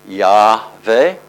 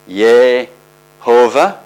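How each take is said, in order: First: The first syllable has an a vowel. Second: The first syllable has an e vowel. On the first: "If you put an A" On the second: "If you put an E"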